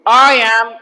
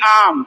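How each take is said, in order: First: Both words are said fully and separately. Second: The two words blend into one short syllable. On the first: "neutral English" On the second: "इसको बोलेंगे आम"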